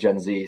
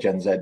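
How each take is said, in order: First: The letter Z is said the American way. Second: The letter Z is said the British way. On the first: It is the form that sounds smoother to say. "sounds like it rolls off the tongue much, much better" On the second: It is the form expected from an English speaker. "I know I'm English. I should probably say Gen Z"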